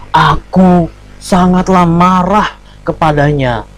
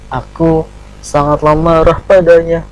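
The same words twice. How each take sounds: First: Loud, slow, high-pitched angry declaration. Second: Anger line said with a mismatched, unangry tone; wrong intonation for anger. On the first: Teacher showing pupils how angry poetry lines should sound, angry. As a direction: declaim it in anger, drawing the words out. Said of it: "misalnya lagi marah". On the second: Teacher showing pupils the unsuitable intonation, mismatched unangry tone. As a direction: recite the angry line without real anger, about to laugh. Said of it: "Tapi masa begini". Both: Shown as a demonstration.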